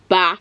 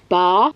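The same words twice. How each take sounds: First: It is said in the speaker's everyday accent. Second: It is said in an unnatural, put-on accent. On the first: The speaker calls it right. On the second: The speaker calls it wrong.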